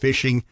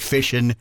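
First: The word ends with a clear g sound. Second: The word ends without a g sound. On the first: The speaker calls it wrong. "They believe there's a G on it" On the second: The speaker calls it right. "That's such a useless letter. At the end, it's actually fishing"

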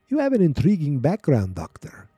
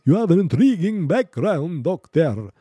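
First: It is said in an ordinary speaking voice. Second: It is said in a put-on Dracula-style voice.

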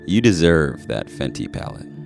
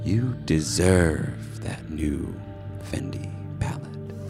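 First: It is said in a normal speaking voice. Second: It is said in a creepy genie voice.

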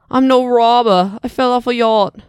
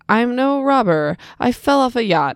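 First: It is said in a British-sounding accent. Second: It is said in a plain American accent.

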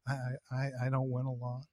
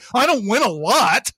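First: The line is said in a flat, understated tone. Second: The line is said in an insistent, protesting tone. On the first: The speaker calmly admits it as plain fact. The speaker calls it right. "But I don't win a lot" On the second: The speaker is defensively arguing the point. The speaker calls it wrong. "they would be a little bit too protesty about it"

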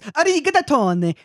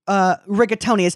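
First: It is said with an Italian pronunciation. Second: It is said with an American pronunciation. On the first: The speaker calls it right. "it's rigatoni" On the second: The speaker calls it wrong. "It's not rigatoni"

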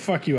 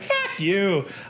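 First: The pitch stays flat without going up. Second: The pitch goes up on the phrase.

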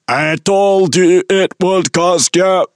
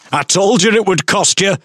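First: It is said in a robotic voice. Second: It is said in a normal voice.

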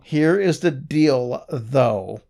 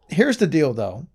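First: Each word is pronounced separately and clearly. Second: The words are run together and less clearly articulated. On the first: The speaker calls it right. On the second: The speaker calls it wrong.

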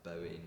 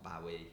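First: The name sounds like the 'Bowie' in 'Bowie knife'. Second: The name sounds unlike the 'Bowie' in 'Bowie knife'. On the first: The speaker calls it right. "It's pronounced like Bowie" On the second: The speaker calls it wrong. "not Bowie"

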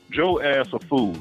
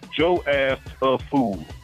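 First: It is said in the speaker's normal voice. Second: It is said in a put-on, mocking voice. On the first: "Let me say this the right way" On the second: "I got to talk like a dumb millennial"

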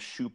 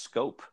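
First: The name begins with an 'sh' sound. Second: The name begins with an 'sk' sound. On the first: The speaker calls it wrong. "I called him Shoop all along as well" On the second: The speaker calls it right. "it's pronounced Scope"

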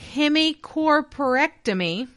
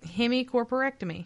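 First: The word is said slowly and carefully. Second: The word is said a little faster.

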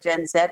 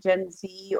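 First: The letter is said the European way. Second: The letter is said the American way.

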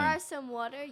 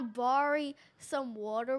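First: The word ends with an 'oh' sound. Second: The word ends with an 'ee' sound. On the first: "You don't say borry" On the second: "called Southern slang"

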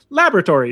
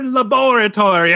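First: The word is pronounced in an ordinary, neutral way. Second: The word is pronounced in a sinister, evil-sounding way. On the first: The speaker comes across as ordinary. "as opposed to laboratory" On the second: The speaker comes across as a villain. "that just sounds like an evil word"

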